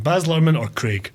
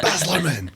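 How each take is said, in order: First: Baz said with a strong fall, Luhrmann run together; the film director's name said as a quick quiz; Baz Luhrmann said carefully. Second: Baz Luhrmann said again, laughing, Baz stressed; echoing the name back with a laugh; repeated name with a laugh. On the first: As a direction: lay the stress on Baz and let it fall. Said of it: "Do you know what I mean?". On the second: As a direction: repeat it through a chuckle. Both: Shown as a demonstration.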